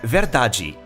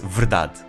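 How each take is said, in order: First: It is said in a Brazilian Portuguese accent. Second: It is said in a European Portuguese accent.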